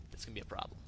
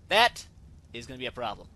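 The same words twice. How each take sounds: First: Hushed whisper to self; breathy aside, barely voiced. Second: Loud emphatic That before a calm finish; stress on That. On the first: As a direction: mutter it under the breath. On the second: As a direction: hit That hard then settle. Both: Real, not acted.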